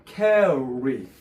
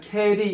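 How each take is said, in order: First: The r sound is a clear English r. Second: The r sound is flat and Korean-like. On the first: The speaker calls it right. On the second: The speaker calls it wrong.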